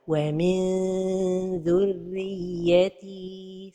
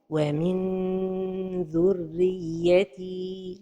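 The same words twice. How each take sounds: First: The n is stretched out like a long vowel. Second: The n is fully closed against the palate. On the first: "trop éloigner la langue du palais supérieur" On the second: "toucher le palais avec le bout de la langue"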